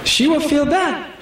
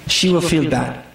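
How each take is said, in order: First: She will feel bad raised up; higher, lifted. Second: She will feel bad dropped low; low and flat. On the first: Preacher to brothers, raised and emphatic. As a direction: lift it higher. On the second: Preacher to brothers, low and level. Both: Shown as a demonstration.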